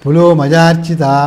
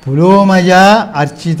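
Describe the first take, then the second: First: There is a break right after 'pulo'. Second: There is a break right after 'pulomaja'. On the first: The name is split so it loses its meaning. The speaker calls it wrong. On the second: Worshipped by Pulomaja, the wife of Indra. The speaker calls it right.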